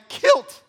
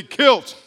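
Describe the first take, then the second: First: Kilt pitched up at the end; voice going up on kilt. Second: Kilt punched out very loud; kilt with some bass. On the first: Real, not acted. Preacher reading how the fire killed, voice rising on kilt. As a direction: let kilt jump high. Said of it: "my voice went up there". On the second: Shown as a demonstration. Preacher showing the congregation how to say kilt, booming. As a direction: boom the word kilt, falling. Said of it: "Say it with some bass".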